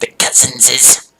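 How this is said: It is said in a Gollum impression voice.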